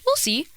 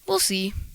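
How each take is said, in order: First: It is said in an upbeat, hopeful tone. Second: It is said in a doubtful, downbeat tone. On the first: It will probably happen. "then you'll see it's more of like a positive thing" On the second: It will probably not happen. "it can kind of give off a more negative vibe"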